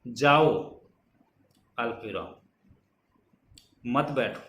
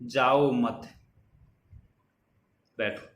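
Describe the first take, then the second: First: The pause comes before the word mat. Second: The pause comes after the word mat. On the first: Go away, do not sit. "दूसरे में जाओ के बाद में लगता है" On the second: Stay here, do not go. "अल्प विराम पहले में तो जाओ मत के बाद में लगता है"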